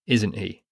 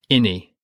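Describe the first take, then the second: First: The words are said in full, as 'isn't he'. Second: The words are squashed into one short word, like 'inny'. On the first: It is the standard form. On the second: It is the Devon dialect form.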